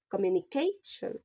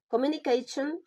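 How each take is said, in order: First: "communication" measured, stress on CA; demonstrated word stress. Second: Said in the usual way. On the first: Shown as a demonstration.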